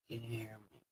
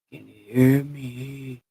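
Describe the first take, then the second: First: Much softer, low "Can you hear me?"; low quiet test. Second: Said in the usual way. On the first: Shown as a demonstration. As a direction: say it almost under the breath. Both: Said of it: "I'll talk real low".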